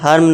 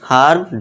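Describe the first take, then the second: First: The vowel is short and clipped. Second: The vowel is long and drawn out. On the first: The speaker calls it wrong. "हर्म नहीं" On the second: The speaker calls it right. "Long आ खींचना है, short आ नहीं long आ"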